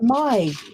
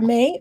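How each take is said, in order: First: The vowel sounds like the one in 'eye'. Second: The vowel sounds like the one in 'day'. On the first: "or M Y?" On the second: "Is that M A Y"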